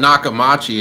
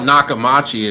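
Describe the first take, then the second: First: The third syllable is pronounced 'ma'. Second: The same.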